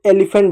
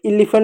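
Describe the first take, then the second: First: एलिफेंट starting with an e sound, as in "egg"; initial short e. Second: एलिफेंट mispronounced as "illiphant"; wrong एलिफेंट, opening on i instead of e; initial i sound. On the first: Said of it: "उसको एलिफेंट बोलते हैं". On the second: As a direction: say एलिफेंट with an ee-like i at the start. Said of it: "एलिफेंट नहीं पढ़ते". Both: Shown as a demonstration.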